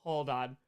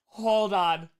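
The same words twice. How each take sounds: First: Said in the usual way. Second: Louder, drawn-out "Hold on"; big, showy stalling call; emphatic hold-on. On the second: Real, not acted. Repeats it louder while unboxing.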